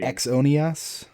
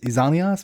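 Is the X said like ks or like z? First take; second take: ks; z. First: The X is said as a ks sound. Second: The X is said as a z sound.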